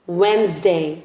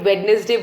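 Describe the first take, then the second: First: The d is silent, giving two syllables. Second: The d is pronounced, giving three syllables. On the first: The speaker calls it right. "It's वेंसडे" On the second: The speaker calls it wrong. "काफी लोग जो वेंसडे या फिर वेडनेसडे बोलते हैं, that's incorrect"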